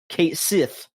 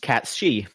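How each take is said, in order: First: The name is said as two words, ending in 'sith'. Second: The name is said like 'cat-shee', ending in 'shee'. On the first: This is the pronunciation used in the English game. The speaker calls it wrong. "in Final Fantasy seven Rebirth, it is pronounced Kate Sith" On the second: This is the pronunciation given by the official Japanese source. The speaker calls it right. "on the official website, it says that it is pronounced Katshi"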